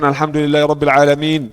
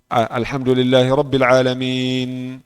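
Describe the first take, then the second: First: The nasal m sound is cut short. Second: The nasal m sound is held a little. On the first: The speaker calls it wrong. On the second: The speaker calls it right.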